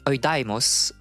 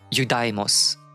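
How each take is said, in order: First: The word begins with an 'oy' sound. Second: The word begins with a 'you' sound. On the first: This is how the speaker learned it. "I don't pronounce it like that. For me, it's like" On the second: This is how English speakers read it. "English people will probably read like"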